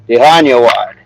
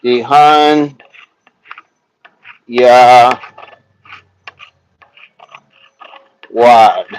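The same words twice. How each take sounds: First: Said in the usual way. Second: Dehan, Ya, Wad as separate syllables with long pauses; sounding it out. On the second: Shown as a demonstration. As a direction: break "Dehan Ya Wad" into slow, isolated pieces. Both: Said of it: "Sound it out".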